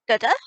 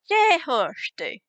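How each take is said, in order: First: The phrase is said fast and heavily run together. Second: The phrase is said at a normal, unhurried pace.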